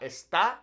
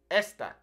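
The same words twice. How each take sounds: First: Esta wrongly stressed on the end, es-TAH, rising; stress on second syllable. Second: Esta stressed on the first syllable, ES-ta, falling. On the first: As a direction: put the weight on the final a of esta. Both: Shown as a demonstration. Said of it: "That emphasis falling on that first E".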